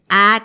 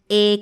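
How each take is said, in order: First: An open ah vowel. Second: A clear eh vowel. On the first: "No dices, ah" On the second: "pero tampoco es una E"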